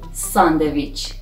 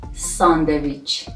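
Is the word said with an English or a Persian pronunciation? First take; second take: Persian; Persian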